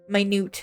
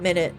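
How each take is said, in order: First: The stress is on the second syllable. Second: The stress is on the first syllable. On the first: The word means small. The speaker calls it right. "It means small" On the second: The word names a unit of time. The speaker calls it wrong. "not minute"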